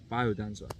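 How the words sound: It is said with an English-style pronunciation. This is how English speakers say it. "pronouncing the Eng- English accent, it is biodanza. So that's how I'm saying it"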